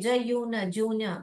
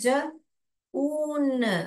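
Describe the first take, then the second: First: The vowel is said with a 'y' glide, 'jyoon'. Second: The vowel is a plain long 'oo', 'joon'. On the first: The speaker calls it wrong. "ज पढ़ने तो आ रहा है जून करके" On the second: The speaker calls it right. "यहाँ पे यू क्या बोल रहे हैं ज ऊन"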